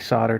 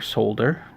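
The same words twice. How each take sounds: First: The L sound is left out of the word. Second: The L sound is clearly said in the word.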